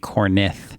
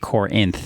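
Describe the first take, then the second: First: The name starts with 'corn' and ends in 'ith'. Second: The name is said 'core-inth' with the I first. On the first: The speaker calls it wrong. "she swapped like the I and the N... as in corn, and then ith" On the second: The speaker calls it right. "when it's actually Corinth"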